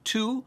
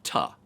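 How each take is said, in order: First: The vowel is a full, rounded 'oo'. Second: The vowel is a short, weak 'uh'. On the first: "the word to" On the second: "replaced the word to with ta"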